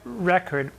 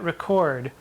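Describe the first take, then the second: First: The stress is on the first syllable. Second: The stress is on the second syllable. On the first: The speaker calls it wrong. "Now it says record" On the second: The speaker calls it right. "the stress is on the second syllabus"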